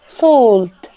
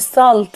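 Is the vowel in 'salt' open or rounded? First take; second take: rounded; open. First: The vowel is a long rounded aw sound. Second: The vowel is an open unrounded a sound. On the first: The speaker calls it right. "نضم بقنا واحنا بننطقها" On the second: The speaker calls it wrong. "مش salt بالفتحة"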